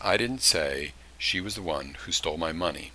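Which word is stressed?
none. No word stands out; the sentence is flat. "I've got no inflection on any part of that sentence"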